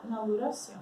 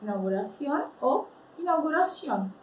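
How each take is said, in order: First: "inauguración" with a plain s sound, no th; without lisp. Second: "inauguración" first with a lisped th, then with a plain s. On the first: Teacher showing "inauguración" without the lisp, plain s. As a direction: say "inauguración" with a clean s. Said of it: "sem soprar". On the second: Teacher contrasting Spanish accents, first "inauguración" lisped then with s. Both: Shown as a demonstration.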